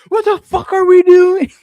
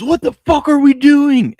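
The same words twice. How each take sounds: First: Put-on very high, loud child's copycat yell; imitating five-year-old. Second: High, loud, drawn-out mock yell; imitating furious fan. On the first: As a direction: squeal it out like a kid copying an angry adult. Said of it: "my five-year-old jumps up and goes". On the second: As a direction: act out a fan losing it over the game. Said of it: "Cole was losing it".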